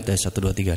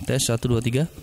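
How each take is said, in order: First: The voice has a strong, full echo effect. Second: The voice has a lighter, reduced echo effect. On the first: "Nah ini efek dua puluh lima yang untuk vokal dua ya" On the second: "bisa dikecilkan setengah. Jadi gemanya tidak terlalu berlebihan"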